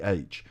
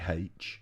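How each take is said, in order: First: The letter name starts with a vowel sound. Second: The letter name starts with an h sound. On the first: The speaker calls it right. "because it's actually H" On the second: The speaker calls it wrong. "You can say H, but it makes you sound silly"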